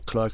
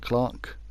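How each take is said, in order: First: It is said the American way, like clurk. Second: It is said the British way, like clark.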